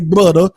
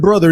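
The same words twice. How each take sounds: First: The middle consonant is a d sound. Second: The middle consonant is a th sound. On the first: "they say brother. You feel with two D's and an A" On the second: "They don't say brother"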